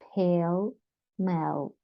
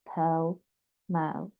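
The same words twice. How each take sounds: Both takes have the same delivery.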